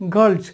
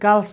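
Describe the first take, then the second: First: The word ends with a z sound. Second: The word ends with an s sound. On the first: The speaker calls it right. "গার্লস হইতে হবে" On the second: The speaker calls it wrong. "এটা গার্লস বলে"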